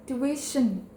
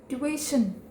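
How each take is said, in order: The two takes are said the same way.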